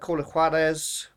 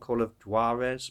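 First: The name is said with a Spanish accent. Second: The name is said with an English accent.

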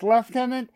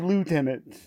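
First: It is said the British-Canadian way, "lef-tenant." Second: It is said the American way, "loo-tenant."

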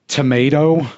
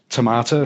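First: It is said with an American accent. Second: It is said with a British accent. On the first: "the first time I ever pronounced tomato" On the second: "instead of tomato"

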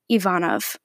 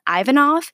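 First: The name is given a Russian pronunciation. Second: The name is given an Americanized pronunciation. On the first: "the Russian pronunciation" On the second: "the Americanized version"

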